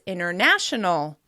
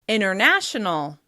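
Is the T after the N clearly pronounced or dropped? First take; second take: dropped; dropped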